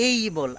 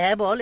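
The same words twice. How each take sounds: First: "এই বল" with a gliding এই; dictionary-style "এই". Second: "এ ball" with a flat short এ; এ said short, not as a glide; usual Bangla-style "এ". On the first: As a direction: stretch এই into a clear glide. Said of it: "এই বলটা সব জায়গায় প্রায় বলার চেষ্টা করি". ("এই" দ্বিস্বরে টেনে উচ্চারণ) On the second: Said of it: "এখানে বলছে এই বল". ("এ বল" সাধারণ বাংলা উচ্চারণে) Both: Shown as a demonstration.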